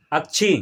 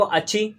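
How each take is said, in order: First: अक्षी said as "ak-chhi", a half k before the chh; hidden k sounded. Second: Said in the usual way. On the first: Shown as a demonstration. Teacher shows the class the hidden half letter, k sounded. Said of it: "इसमें का छुपा हुआ है". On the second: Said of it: "तो क्या पढ़ेंगे?".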